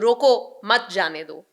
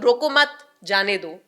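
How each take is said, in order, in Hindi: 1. विराम 'roko' शब्द के ठीक बाद आता है। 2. विराम 'mat' शब्द के ठीक बाद आता है। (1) "आवाज के उतार चढ़ाव से मैंने ये चीज जो है वो क्लियर कर दी" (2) "दोनों का मतलब फर्क है"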